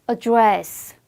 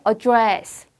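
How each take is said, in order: Both takes have the same delivery.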